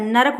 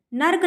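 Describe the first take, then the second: First: Said in the usual way. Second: नर्क in one syllable, "nark"; wrong pronunciation. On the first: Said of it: "नरक होता है". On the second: Shown as a demonstration. Teacher shows the common wrong form, said "nark". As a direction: run r straight into k in नर्क. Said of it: "नर्क नहीं होता है".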